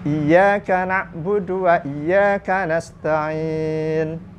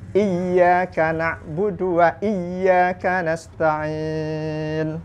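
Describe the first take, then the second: First: The y sound is short and single. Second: The y sound is held long and doubled. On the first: Only to Your sunlight we worship and ask for help. The speaker calls it wrong. "membacanya tanpa tasdid" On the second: Only You we worship and only You we ask for help. The speaker calls it right. "ya-nya tasdid"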